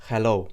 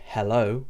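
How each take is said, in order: First: Hello in a Maltese accent, pure short o. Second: Hello in an English accent, gliding o. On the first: Teacher shows how the O changes, Maltese-accented hello. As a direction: say hello the Maltese way, o without the glide. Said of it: "it becomes more of a". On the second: Teacher contrasts with Maltese, hello in English accent. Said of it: "like we say in our English accent". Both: Shown as a demonstration.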